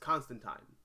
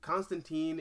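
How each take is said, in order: First: The final syllable rhymes with 'line'. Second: The final syllable does not rhyme with 'line'. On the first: It names the comic book character. The speaker calls it right. "rhymes with line" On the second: It names the historic religious figure. The speaker calls it wrong. "the way we pronounce like the historic religious figure's name"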